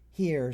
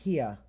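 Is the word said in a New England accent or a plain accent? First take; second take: plain; New England. First: It is said in a plain accent. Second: It is said in a New England accent.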